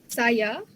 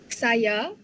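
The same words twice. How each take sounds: The two takes are said the same way.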